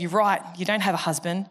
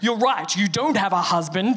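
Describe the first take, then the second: First: It is said in a neutral tone. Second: It is said in an accusatory tone.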